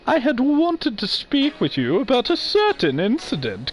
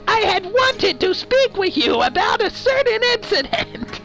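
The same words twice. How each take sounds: First: It is said in a gentler, normal voice. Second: It is said in a harsh Rita Repulsa voice.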